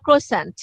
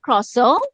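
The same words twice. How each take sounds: First: Croissant said the American way, every letter sounded, ending in a hard nt; American pronunciation. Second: Croissant said the French way, final t silent, ending in a nasal o; French pronunciation. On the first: Teacher contrasting the American croissant for her student. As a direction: pronounce the full croissant, kro-SANT with the t. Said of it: "আমেরিকানরা উচ্চারণ করে". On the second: Teacher demonstrating the original French croissant to her student. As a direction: say croissant like a Parisian, kro-SAW with no t. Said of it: "এটার মূল pronunciation হচ্ছে".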